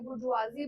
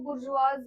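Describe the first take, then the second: First: The word ends with a 'zee' sound. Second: The word ends with a 'z' sound. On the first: "बुर्जुआजी बोलेंगे" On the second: "बहुत सब लोग इसको बुर्जुआज बोलेंगे"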